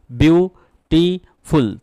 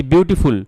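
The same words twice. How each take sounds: First: beautiful said very slowly in three separate syllables, with a pause after each; teacher sounding out beautiful syllable by syllable; broken into syllables. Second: Said in the usual way. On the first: Shown as a demonstration. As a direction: break beautiful into three drawn-out beats. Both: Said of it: "এখানে তিনটে syllable রয়েছে".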